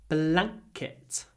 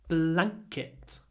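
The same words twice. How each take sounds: The two takes are said the same way.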